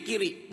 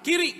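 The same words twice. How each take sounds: First: Lightly voiced falling echo; compliant wife. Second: Lightly acted order, rising; a touch of husbandly command; bossy husband. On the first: Wife echoes choleric husband's order, mildly obedient. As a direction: give the order back without resistance. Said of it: "jangan dilawan". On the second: Choleric husband orders his wife to look left, mildly commanding. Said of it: "kalau suami udah ngomong".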